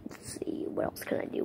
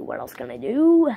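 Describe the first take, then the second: First: Unvoiced whisper to himself. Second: Said in the usual way. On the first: Shown as a demonstration. Thinking aloud which voice to do, whispered. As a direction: whisper it under your breath.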